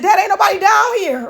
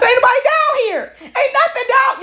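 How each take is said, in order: First: Higher-pitched upset protest to dad; tearful complaint. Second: Mock crying. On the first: Retold or imitated. Daughter on the phone to her dad, mildly tearful. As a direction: retell a mildly upset plea, pitch raised. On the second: Daughter crying to dad on the phone, mock wailing. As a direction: imitate yourself bawling, hammed-up whine. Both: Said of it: "And I'm still crying".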